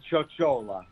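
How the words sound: The name has an Italian-style pronunciation. "the Italian pronunciation"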